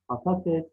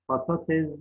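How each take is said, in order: First: Said in the usual way. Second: "Patates" ending in z, patatez; voiced z closing "Patates"; misspelt form. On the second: Shown as a demonstration. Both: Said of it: "Patates değil".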